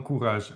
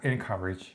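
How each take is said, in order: First: The first syllable has a nasal French-like vowel. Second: The first syllable has a plain English vowel. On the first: The speaker calls it wrong. "во французском это произносится как «un»" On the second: The speaker calls it right. "Хотя это enc- encourage"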